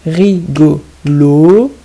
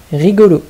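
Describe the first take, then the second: First: "Rigolo" loud and slow, in three separate syllables. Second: Said in the usual way. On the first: Shown as a demonstration. Teacher dictating to children, "Rigolo" beat by beat. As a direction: stretch out "Rigolo", holding the final "lo". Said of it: "il faut bien écouter la deuxième syllabe".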